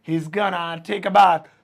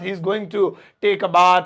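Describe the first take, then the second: First: Going to is shortened into one word, gonna. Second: Going to is said fully as two words. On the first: "short में ... बोल सकते हैं" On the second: "मैं इसे यही बोलता"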